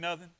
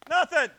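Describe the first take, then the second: First: The word is said softly. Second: The word is said loudly.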